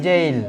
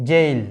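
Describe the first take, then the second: The two takes are said the same way.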